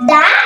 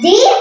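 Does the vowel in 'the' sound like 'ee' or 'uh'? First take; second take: uh; ee. First: The word ends in a short 'uh' vowel. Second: The word ends in a long 'ee' vowel. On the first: The next word starts with a consonant. "তাই এখানে দ্য উচ্চারণ হবে" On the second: The next word starts with a vowel. "তাই এখানে দ্বি উচ্চারণ হবে"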